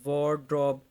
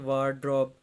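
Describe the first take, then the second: First: The first vowel sounds like 'o'. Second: The first vowel sounds like 'aa'. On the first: The speaker calls it right. "ये ए जो है ना ये ओ जैसी sound देगा।" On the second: The speaker calls it wrong. "ना कि वार्ड्रॉप।"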